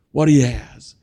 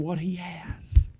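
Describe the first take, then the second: First: Said in the usual way. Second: Hushed whisper for "what he has". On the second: Shown as a demonstration. Preacher drawing the congregation close, whispering. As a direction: breathe the line, no voice. Whispered line before repeat.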